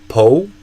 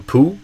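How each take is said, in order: First: The word ends in an oh vowel, no L. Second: The word ends in an oo vowel, no L. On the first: "So not po" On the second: "or poo"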